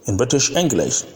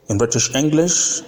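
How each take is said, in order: No difference in how they are said.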